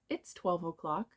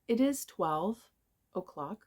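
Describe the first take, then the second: First: It is shortened into one syllable. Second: It is said as two separate words.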